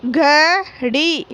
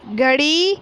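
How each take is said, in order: First: घड़ी slow, with the ई drawn out; teacher modelling घड़ी slowly; stretched long ई. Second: Said in the usual way. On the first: Shown as a demonstration. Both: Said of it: "इस प्रकार पढ़ना है".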